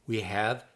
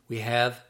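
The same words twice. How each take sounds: No difference in how they are said.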